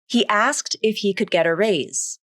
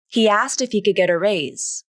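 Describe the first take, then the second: First: Each word is said fully and separately. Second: The words are reduced and linked together. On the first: "the full pronunciation of asked" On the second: "according to the rule of three"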